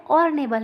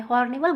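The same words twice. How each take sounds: First: ऑर्नेबल opened on the vowel, no h; silent h. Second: हॉर्नेबल with an h sounded at the start; wrong h. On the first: Teacher stressing the right ऑर्नेबल to her class. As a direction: say ऑर्नेबल without the h. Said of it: "यहाँ पे ऑर्नेबल है". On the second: Teacher warning students the h in हॉर्नेबल is wrong. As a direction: put a clear h on हॉर्नेबल. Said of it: "गलत हो जाएगा यहाँ पे". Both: Shown as a demonstration.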